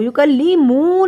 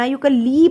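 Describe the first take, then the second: First: یکلی مو slow, with the mu stretched long; wrongly lengthened vowel. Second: یکلی said without dragging the following syllable; correct reading. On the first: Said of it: "نہیں پڑھنا". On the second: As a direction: say یکلی evenly, not drawn out. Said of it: "میں نے لمبا نہیں کیا". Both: Shown as a demonstration.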